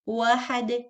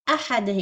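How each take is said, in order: First: The word begins with a w sound. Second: The word begins with a clear glottal stop. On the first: The speaker calls it wrong. "don't say قل هو الله واحد" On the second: The speaker calls it right. "أحد is hamza"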